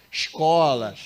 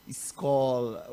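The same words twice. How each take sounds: First: "Escola" com s chiado carioca, "ish-kola"; carioca pronunciation. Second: "escola" with a plain hissing s, "es-kola", no Rio shush; plain s pronunciation. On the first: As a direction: say "Escola" with the Rio shushing s. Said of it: "não posso falar o nosso carioquês". ("Escola" com o s chiado do carioca) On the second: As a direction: say "escola" with a clean s. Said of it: "Eu tenho que falar escola". ("escola" com s sibilante, sem chiar) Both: Shown as a demonstration.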